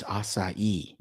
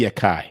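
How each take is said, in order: First: Acai as "ah-sah-EE", soft s; correct pronunciation. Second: Acai with a hard k, "uh-KAI"; alternative pronunciation. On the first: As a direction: say acai in three syllables, "ah-sah-ee". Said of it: "No, it's acai". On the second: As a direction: say acai as if spelled "akai". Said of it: "That's what it should be". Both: Shown as a demonstration.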